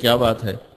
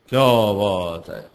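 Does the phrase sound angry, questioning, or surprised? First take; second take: questioning; surprised. First: It is said as a plain inquiring question. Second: It is said with an amazed, wondering tone. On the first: The speaker is asking what the matter is. "आपके ज़हन में आता है कि मौलवी साहब कोई बात पूछ रहे हैं" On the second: The speaker is astonished by something. "मौलवी साहब किसी बात पे हैरान हो रहे हैं"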